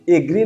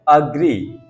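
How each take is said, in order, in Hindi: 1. यह शब्द 'eh' स्वर से शुरू होता है। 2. यह शब्द 'uh' स्वर से शुरू होता है। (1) "एग्री नहीं होता है" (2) "अग्री है ये"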